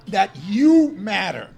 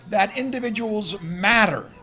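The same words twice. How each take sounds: First: "you" punched louder, slowed down; stress on you. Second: Said in the usual way. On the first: Shown as a demonstration. Lecturer turns to audience, stressing "you". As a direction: lean hard and slow on "you". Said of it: "repeat stressing you". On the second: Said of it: "plain statement before emphatic repeat".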